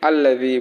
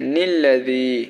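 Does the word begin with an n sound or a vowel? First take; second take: vowel; n sound. First: The word begins with a vowel sound. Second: The word begins with an n sound. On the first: The reciter stops at the end of the previous verse. "যেহেতু আমরা এখানে থামতেছি, ওয়াকফ করতেছি" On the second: The reciter continues from the previous verse without stopping. "যদি আপনি না থামেন তাহলে কিরকম হয়"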